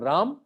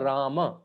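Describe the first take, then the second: First: The name ends without a final vowel. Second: The name ends with a short, half final vowel. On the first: This is how it is said in northern India. "in north of India, that Rama become in Hari become Ram" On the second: This is the form in between the two regional forms. "It's the half matra Rama"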